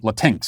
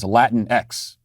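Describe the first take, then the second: First: The ending is a plain 'ks' sound, read as spelled. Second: The ending is said as the letter name 'ex'. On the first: This is a literal reading of the spelling. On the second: This is the pronunciation others intend. "they want us to pronounce as Latin X"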